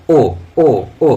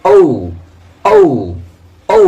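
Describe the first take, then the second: First: ও as a short pure o; common wrong pronunciation. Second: ও stretched into "oh-oo"; correct pronunciation. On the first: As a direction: say ও with no glide. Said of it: "ওটা ও নয়". (ও-র ভুল উচ্চারণ, একটাই স্বর) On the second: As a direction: glide ও down to a rounded u. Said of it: "কিন্তু ওটা ও নয়". (ও-র সঠিক উচ্চারণ, ওউ করে টেনে) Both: Shown as a demonstration.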